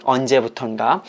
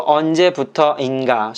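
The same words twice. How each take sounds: First: 언제부턴가 with 터인 merged into one syllable 턴; contracted form. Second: Said in the usual way. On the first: Shown as a demonstration. Teacher showing learners the shortened form, 언제부턴가 contracted to 턴. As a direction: say 언제부턴가 short, running 부터인가 together as 부턴가. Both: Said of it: "make it short".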